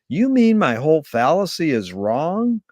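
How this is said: It is said with a questioning intonation. The speaker is asking whether the fallacy is wrong. "Marshall would ask it as a question"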